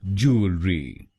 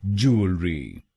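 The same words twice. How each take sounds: First: "jewellery" drawn out slowly, each part clear; slower. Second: Said in the usual way. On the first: Shown as a demonstration. Teacher slowing "jewellery" down for learners, deliberate. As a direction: stretch "jewellery" out gently. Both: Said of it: "तो बनेगा".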